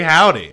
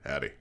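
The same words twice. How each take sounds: First: It is said in his normal voice. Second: It is said in a deep voice.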